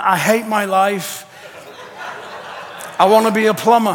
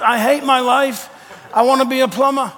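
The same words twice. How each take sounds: First: Laughing, exasperated Peter; half-laugh the complaint in Peter's voice; panicky Peter, laughing. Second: Said in the usual way. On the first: Retold or imitated. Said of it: "He's walking around going". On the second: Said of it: "I've had that thought".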